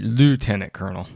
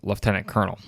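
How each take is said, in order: First: It is said with the American pronunciation. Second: It is said with the Canadian pronunciation.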